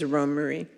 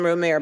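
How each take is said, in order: First: The name is said with three syllables. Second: The name is said with two syllables. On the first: The speaker calls it right. "the accurate pronunciation is Romery" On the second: The speaker calls it wrong. "Sometimes I slip and call him Romer"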